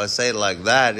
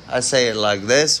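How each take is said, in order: First: Quicker put-on accent, falling on THAT; another fake accent. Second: Put-on accent, rising on THIS; fake accent. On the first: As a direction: toss off "that" fast in a fake accent, dropping at the end. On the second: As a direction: say "this" in a fake accent, lifting it at the end. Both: Shown as a demonstration. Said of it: "It's all fake accents".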